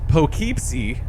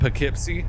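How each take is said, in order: First: It is said in a non-local way. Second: It is said the local New York way. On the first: The speaker calls it wrong. "They wouldn't say" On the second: The speaker calls it right. "I think that's how the New Yorkers would say it"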